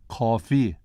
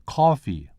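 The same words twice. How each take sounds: First: "Coffee" in Malaysian tones, three then one; Malaysian accent. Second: Said in the usual way. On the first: Shown as a demonstration. Lecturer explaining the special accent, Malaysian-accented "Coffee". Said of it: "is three one". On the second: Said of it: "is one six".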